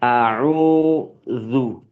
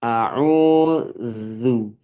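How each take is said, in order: Both takes have the same delivery.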